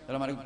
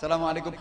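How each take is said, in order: First: It is said sullenly, with tight lips. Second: It is said warmly, with a smile.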